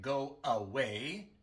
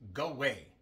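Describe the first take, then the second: First: The unstressed middle vowel is fully pronounced. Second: The unstressed middle vowel is dropped entirely. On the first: "En lugar de go away" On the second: "decimos go away"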